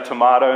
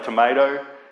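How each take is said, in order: First: Tomato is said with a non-American pronunciation. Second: Tomato is said with an American pronunciation. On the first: "you say tomato" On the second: "the Americans say tomato"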